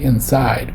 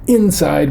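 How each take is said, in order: First: The stress is on the last syllable. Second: The stress is on the first syllable. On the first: The speaker calls it right. "which is a stress on the end" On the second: The speaker calls it wrong. "we don't do it that way"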